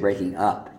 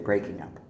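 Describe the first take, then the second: First: The stress falls on the word up. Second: The stress falls on the word breaking. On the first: The speaker calls it right. "But you do say breaking up" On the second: The speaker calls it wrong. "you don't say breaking up"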